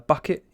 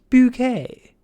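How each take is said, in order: First: The name ends with a plain 'it' sound. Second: The name ends with a French-style 'ay' sound. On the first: The speaker calls it wrong. "a Miss uh, Bucket" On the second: The speaker calls it right. "It's pronounced bouquet"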